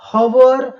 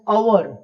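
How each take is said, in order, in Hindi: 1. यह शब्द h की ध्वनि से शुरू होता है। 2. यह शब्द स्वर की ध्वनि से शुरू होता है। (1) "we pronounce not as हवर" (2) "but we pronounce it as अवर"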